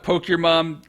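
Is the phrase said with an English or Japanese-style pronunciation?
English. It is said with plain English pronunciation.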